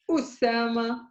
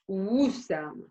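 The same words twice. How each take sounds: First: Usama opened on a glottal stop; with the hamza. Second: Wusama begun with a W glide; without the hamza. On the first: Teacher contrasting two onsets for students, glottal stop. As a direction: catch the throat shut, then release Usama. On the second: Teacher contrasting two onsets for students, soft W glide. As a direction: round the lips into Wusama, no throat catch. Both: Shown as a demonstration. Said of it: "See the difference?".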